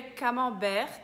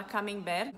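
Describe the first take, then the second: First: Camembert with nasal "man" and silent T; French pronunciation. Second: Camembert with "mem" in the middle and tapped R; Brazilian pronunciation. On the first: Teacher names the first cheese, French pronunciation of camembert. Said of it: "que aqui a gente fala". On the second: Teacher shows the local habit, Brazilian pronunciation of camembert. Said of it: "aqui a gente fala". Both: Shown as a demonstration.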